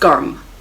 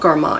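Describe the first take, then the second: First: The word ends on the final consonant. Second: The word ends with an added 'a' vowel. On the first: This is the original form used in the mantra. The speaker calls it right. "it's Garm" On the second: This is the anglicized form used in English. The speaker calls it wrong. "It's not Garma"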